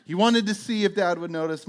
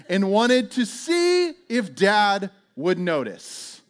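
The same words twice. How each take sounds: First: Said in the usual way. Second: Drawn out, word by word; slow, emphatic punchline. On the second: Retold or imitated. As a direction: stretch it slowly for comic disbelief. Slow punchline, then repeated plainly.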